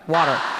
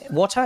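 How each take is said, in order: First: It is said in an American accent. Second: It is said with a crisp non-American T.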